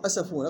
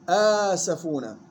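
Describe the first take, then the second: First: The opening vowel is not held for two counts. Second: The opening vowel is held for two counts. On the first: The speaker calls it wrong. "غلط" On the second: The speaker calls it right. "مد بدل مقدار حركتين"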